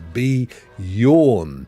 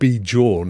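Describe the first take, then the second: First: The J is silent and sounds like a Y. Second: The J is sounded like an English J. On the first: The speaker calls it right. "it's a silent J, right? Like Jesus in, in Spanish" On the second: The speaker calls it wrong. "not be jawn"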